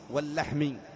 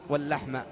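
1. تنتهي الكلمة بحركة 'i'. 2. تنتهي الكلمة بحركة 'a'. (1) "رعيت اللفظ" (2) "إذا رعيت المعنى"

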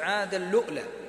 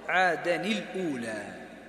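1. تُدغم النون في اللام، ثم يأتي توقف حنجري. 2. تُنطق النون منفصلة قبل الأولى. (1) "يزيد على الإدغام يزيد همزة" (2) "ابن كثير وابن عامر والكوفيون يقرؤون عادن الأولى"

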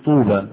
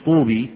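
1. تنتهي الكلمة بحركة 'aa' طويلة. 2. تنتهي الكلمة بحركة 'ee' طويلة. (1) "تقول طوبى ... ونطقتها إيه؟ ألف" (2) "لما تقولش طوبي"

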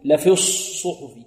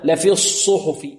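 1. يُنطق الصوت s الأول بشفتين مستديرتين. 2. يُنطق الصوت s الأول بشفتين مستديرتين.

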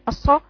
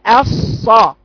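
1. يُقطع صوت الصاد قصيرًا. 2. يستمر صوت الصاد ويُمَدّ. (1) "ما اقراش كالتالي" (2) "لازم اقول الصا"

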